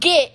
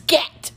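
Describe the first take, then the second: First: The word is said with a Texas accent. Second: The word is said without a Texas accent. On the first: The speaker calls it wrong. "It's not get" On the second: The speaker calls it right. "it's get"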